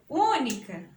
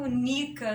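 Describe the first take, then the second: First: The stress falls on the first syllable. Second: The stress falls on a later syllable. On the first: The speaker calls it right. "eu falo única" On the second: The speaker calls it wrong. "não falo única"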